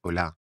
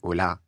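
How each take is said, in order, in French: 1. L'accent tombe sur la dernière syllabe. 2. L'accent tombe sur la dernière syllabe.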